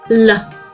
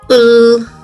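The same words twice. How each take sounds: First: The sound ends with an added 'uh' vowel. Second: The sound is held with no vowel after it. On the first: The speaker calls it wrong. "This is how you shouldn't say it" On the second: The speaker calls it right. "how you should pronounce it"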